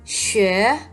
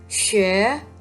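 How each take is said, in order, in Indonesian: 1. Vokalnya terdengar seperti 'ü' yang membulat. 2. Vokalnya terdengar seperti 'ü' yang membulat.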